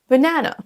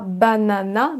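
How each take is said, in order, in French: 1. La syllabe du milieu est accentuée et allongée. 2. Toutes les syllabes ont le même accent et des voyelles pleines. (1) "L'accentuation se fait sur la deuxième syllabe" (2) "On ne dit pas banana"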